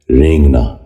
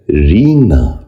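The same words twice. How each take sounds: First: رینگنا said "rengna", with an "ay" sound and audible g; mispronounced, "e" vowel. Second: رینگنا said "reengna", long "ee" and softened g; correct pronunciation. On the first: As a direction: open رینگنا with "rayng". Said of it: "غلط تلفظ ہے". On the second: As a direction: open رینگنا with a drawn "reeng". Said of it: "درست تلفظ ہے". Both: Shown as a demonstration.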